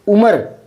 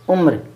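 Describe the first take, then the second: First: The r is followed by a full vowel. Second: The r is clipped with no vowel after. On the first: This is how the song says it. "वो उम्र बोलता है ये" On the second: This is the standard pronunciation. "मैं उम्र बोल रहा था और सही है ये उम्र"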